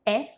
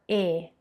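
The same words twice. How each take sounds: First: E said open, wide like "eh". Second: E said closed, tight like "ay" without glide. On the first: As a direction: open the mouth on E, "eh". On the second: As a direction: keep E closed and narrow. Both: Shown as a demonstration. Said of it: "You hear the difference?".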